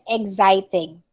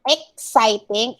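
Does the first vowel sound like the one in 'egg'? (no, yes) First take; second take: yes; no. First: The first vowel is like in egg. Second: The first vowel is not like in egg. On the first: The speaker calls it right. "it's exciting, as in egg" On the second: The speaker calls it wrong. "it's not exciting"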